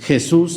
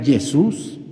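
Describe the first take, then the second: First: First "Jesús" with a throaty J; correct Spanish J. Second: Second "Jesús" with a Y for the J; mock mispronunciation. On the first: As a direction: say "Jesús" as heh-SOOS, carefully. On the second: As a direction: say "Jesús" as yeh-SOOS, slowly. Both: Shown as a demonstration. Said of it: "Jesús sería Jesús".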